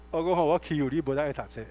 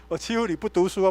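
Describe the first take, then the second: First: Said in the usual way. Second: Laughing through the words. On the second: Retold or imitated. Pastor teasing his ex-gangster friend, laughing. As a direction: tease him and laugh as you say it.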